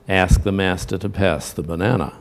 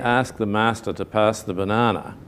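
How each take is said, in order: First: It is said in an American accent. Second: It is said in an Australian accent. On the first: "because that's how they're going to say it in America" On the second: "which we pronounce like that"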